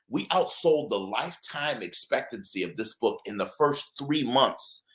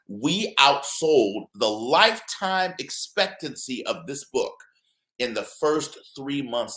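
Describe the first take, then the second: First: It is spoken at a normal pace. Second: It is spoken at a slow pace.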